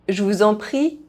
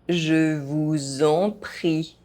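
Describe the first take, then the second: First: The phrase is spoken fast. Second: The phrase is spoken at normal pace. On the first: This is how native speakers say it. "fast, as a native speaker would do" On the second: This is the recommended way for learners to say it. "at a normal pace"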